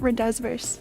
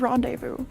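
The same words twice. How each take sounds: First: The word is pronounced with English spelling sounds. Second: The word is pronounced with French sounds. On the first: The speaker calls it wrong. "it's not rendezvous" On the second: The speaker calls it right. "It's French"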